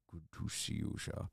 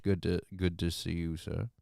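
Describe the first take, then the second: First: Much softer, breathy whisper; hushed repeat of the greeting. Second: Said in the usual way. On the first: Real, not acted.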